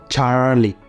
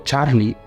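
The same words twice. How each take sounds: First: The R is a soft English R. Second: The R is a strong Spanish R.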